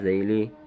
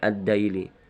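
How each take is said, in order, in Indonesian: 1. Diawali dengan bunyi mirip th yang lembut. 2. Diawali dengan bunyi d biasa. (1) "huruf za berubah menjadi dal" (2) "diucapkan menjadi"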